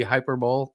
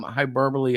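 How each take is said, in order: First: "hyperbole" said as hyper-bowl; old mispronunciation. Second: "hyperbole" ending in bo-lee; correct pronunciation. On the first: Confessing an old slip, "hyperbole" mispronounced as hyper-bowl. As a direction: end "hyperbole" like a bowl, silent final e. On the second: Explaining an old slip, "hyperbole" pronounced with a final lee. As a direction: say "hyperbole" in four syllables, hy-PER-buh-lee. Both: Shown as a demonstration. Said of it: "when I used to pronounce".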